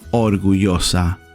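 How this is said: The double L has the neutral international sound. "This is the international, the most widely used way of pronouncing the double L"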